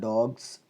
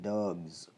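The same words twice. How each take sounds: First: The word ends with an s sound. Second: The word ends with a z sound. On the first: The speaker calls it wrong. "Instead of dogs" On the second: The speaker calls it right. "it should be pronounced as dogs"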